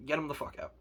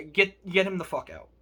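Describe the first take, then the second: First: Much softer, under the breath; said again quietly to yourself; muttered repeat. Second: Said in the usual way. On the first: Real, not acted. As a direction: drop it low, like a bitter aside.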